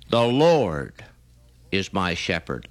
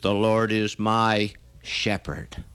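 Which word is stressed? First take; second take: Lord; shepherd. First: The stress falls on the word Lord. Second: The stress falls on the word shepherd.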